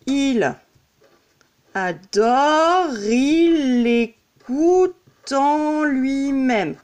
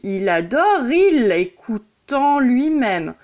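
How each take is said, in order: First: Adore il drawn out as "a-do-ril", E silent; very slow, each syllable held, linking adore into il. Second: Adore run straight into il, final E dropped; no E heard at the end of adore; silent E linking. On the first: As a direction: stretch each beat, no E on adore. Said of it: "C'est comme si j'écrivais". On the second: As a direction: link adore to il as "ado-ril". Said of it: "Le E, on ne l'entend pas". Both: Shown as a demonstration.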